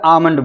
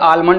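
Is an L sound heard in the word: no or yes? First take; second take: no; yes. First: The L sound is left out of the word. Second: The L sound is pronounced in the word. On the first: The speaker calls it right. "एल silent आमंड बोलेंगे इसको" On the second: The speaker calls it wrong. "बहुत सारे लोग इसको पता नहीं क्या पढ़ते होंगे"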